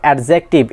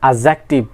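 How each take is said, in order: First: The d sound is clearly pronounced. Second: The d sound is left silent. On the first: The speaker calls it wrong. "It's not অ্যাডজেক্টিভ" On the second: The speaker calls it right. "It's an অ্যাডজেক্টিভ"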